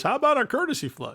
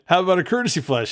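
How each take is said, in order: First: High-pitched mock announcer voice; Pettingill. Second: Said in the usual way. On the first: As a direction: imitate a chirpy TV announcer, pitched way up. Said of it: "in his Pettingill announcer voice".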